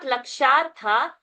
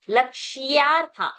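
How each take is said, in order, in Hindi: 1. 'ksh' के बाद कोई 'y' ध्वनि नहीं है। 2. 'ksh' के बाद एक स्पष्ट 'y' ध्वनि है। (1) "not lakshartha" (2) "ya has to be heard"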